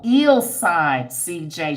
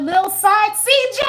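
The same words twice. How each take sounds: First: "Ill Side C J" slow and careful, stressing Ill; corrected name. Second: Lil Side C J said high and loud as a first guess; misread name. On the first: Correcting herself on a viewer's name, slow and careful. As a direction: spell out "Ill" deliberately, slowing down. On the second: Reading a viewer's name aloud, high misread. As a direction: read "Lil Side C J" off the screen, pitched up. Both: Real, not acted. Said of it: "No, Ill Side C J".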